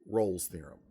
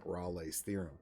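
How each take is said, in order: First: The name is said with one syllable. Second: The name is said with two syllables.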